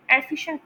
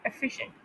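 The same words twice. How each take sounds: First: एफिशिएंट as many people mispronounce it; common mispronunciation. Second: एफिशिएंट with a light, unstressed first syllable; corrected pronunciation. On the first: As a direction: imitate the common wrong vowel in एफिशिएंट. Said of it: "mostly लोग एफिशिएंट pronounce कर रहे होते हैं". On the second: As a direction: stress the middle "fi" of एफिशिएंट. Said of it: "लेकिन ये है एफिशिएंट". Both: Shown as a demonstration.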